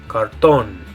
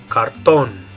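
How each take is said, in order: The two takes are said the same way.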